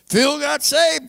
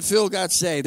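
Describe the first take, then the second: First: Higher-pitched, emphatic repeat of the news; retold astonishment. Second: Said in the usual way. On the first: Relaying to doubting family that Phil got saved, astonished. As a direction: hit it like unbelievable family news. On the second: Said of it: "They called my family and said".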